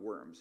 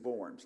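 First: It is said like the English word worms. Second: It is said with a German pronunciation. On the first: It sounds like the animals, as in a joke. The speaker calls it wrong. "not Worms" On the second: It names the German city. The speaker calls it right. "it is Worms"

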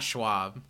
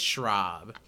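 First: The name is said with a w sound. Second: The name is said with an r sound. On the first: The speaker calls it wrong. "it's not Schwab" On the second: The speaker calls it right. "It's Schraub"

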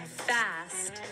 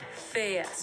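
First: The vowel is a single plain vowel. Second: The vowel glides as a diphthong.

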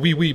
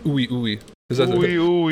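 First: Each syllable starts with a w sound. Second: Each syllable starts with an oo vowel. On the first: "the strain was called wee wee" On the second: "but he pronounced it ooey ooey"

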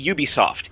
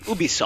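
First: It is said the American way. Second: It is said the Montreal way.

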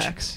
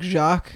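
First: The name is said with an English pronunciation. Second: The name is said with a French pronunciation. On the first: This is how the family says the name. "but my family pronounces it" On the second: This is how the spelling would normally be read. "like Jacques"

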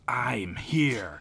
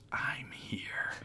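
First: It is said very loudly. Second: It is said in a whisper.

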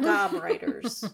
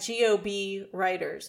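First: Gob is spoken as one single word. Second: GOB is spoken as three separate letters. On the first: The speaker calls it wrong. "not Gob Writers" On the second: The speaker calls it right. "I pronounce it GOB Writers"

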